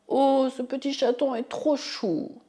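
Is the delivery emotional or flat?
emotional. It is said with strong, lively emotion.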